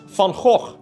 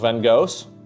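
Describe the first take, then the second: First: The name is said with a Dutch pronunciation. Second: The name is said with an American pronunciation.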